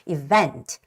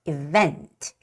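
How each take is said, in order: First: The stress is on the second syllable. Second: The same.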